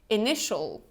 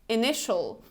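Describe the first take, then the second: The two takes are said the same way.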